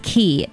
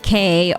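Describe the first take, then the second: First: The word sounds like 'key', rhyming with 'see'. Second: The word sounds like the letter K, rhyming with 'say'. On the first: The speaker calls it right. "I believe this is the correct pronunciation. It's Key" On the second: The speaker calls it wrong. "not K"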